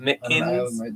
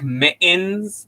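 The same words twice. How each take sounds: First: The T sounds in the middle are clearly pronounced. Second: The T sounds in the middle are dropped. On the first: The speaker calls it right. "there's two of them" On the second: The speaker calls it wrong. "they delete the two T's from mittens"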